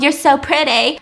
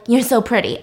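First: Mock magic spell. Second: Said in the usual way. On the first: Mocking his opening-her-mouth formula, mock magic spell. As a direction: say it like a mock incantation. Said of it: "magic spell".

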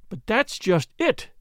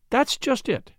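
First: Slow, higher-pitched emphatic protest; cried out. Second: Higher-pitched, simple and unforced reply; simply. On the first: Flora contradicting the doctor about the police, crying out. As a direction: protest emphatically, drawing the words out. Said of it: "cried the girl". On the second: Flora answering the doctor's objection, simply. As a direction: say it simply, in a lifted voice. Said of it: "said Flora simply". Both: A narrator's reading.

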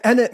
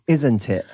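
First: Innit run together as 'in-it', no s; contracted innit. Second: Said in the usual way. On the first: Shown as a demonstration. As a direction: squash isn't it down to innit. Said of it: "means, like, "Isn't it?". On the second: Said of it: "means, like".

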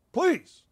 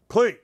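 First: A sudden high begging squeak; high mock plea. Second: Said in the usual way. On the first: Mock-begging Zoe to write more in a high squeak. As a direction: beg way up high, hammed-up.

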